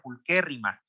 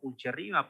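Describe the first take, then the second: First: The middle consonant sounds like a hard 'k'. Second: The middle consonant sounds like 'ch' in church. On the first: The speaker calls it right. "en latín se pronuncia como que, entonces tiene que ser" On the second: The speaker calls it wrong. "no se pronuncia pulcherrima porque la che"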